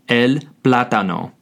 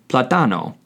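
First: The stress is on the first syllable. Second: The stress is on the second syllable. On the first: The speaker calls it right. "the correct pronunciation is el plátano" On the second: The speaker calls it wrong. "If there were no accent, it would be pronounced plátano, which is incorrect"

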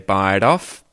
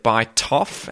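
First: The T is flapped, sounding like a D. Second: The T is a clear, released T sound. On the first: The speaker calls it right. "that we say bite off" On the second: The speaker calls it wrong. "instead of bite off"

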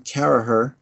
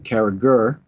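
First: The middle G sound is silent. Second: The middle G sound is pronounced. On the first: This is the local Irish pronunciation. "is the way someone in Monahan would pronounce it" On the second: This is how Americans read the spelling. "they see my name spelled with the G and pronounce the G"

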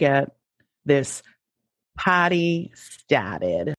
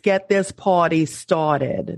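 First: It is said in a Boston accent. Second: It is said in a New York accent. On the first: "I always say that like I'm from Boston" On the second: "let me say it as a New Yorker"

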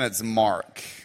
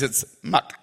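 First: It is said in an American accent. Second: It is said in a Chinese accent.

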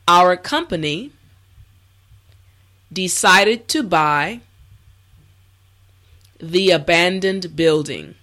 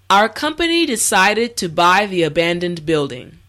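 First: The sentence is spoken slowly and carefully. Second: The sentence is spoken at a natural speed. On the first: "this time repeat after me" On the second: "the last time at a regular pace"

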